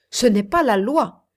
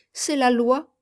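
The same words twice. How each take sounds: First: Firm, raised contradiction; authoritative assertion. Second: Said in the usual way. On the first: A narrator's reading. Guest contradicts Ernest on the law, authoritative assertion. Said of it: "affirma avec autorité monsieur Calvin".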